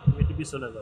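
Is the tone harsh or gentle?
gentle. It is said gently and kindly.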